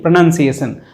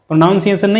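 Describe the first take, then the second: First: The word is said in the dictionary way. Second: The word is said in the commonly heard way. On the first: The speaker calls it right. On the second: The speaker calls it wrong.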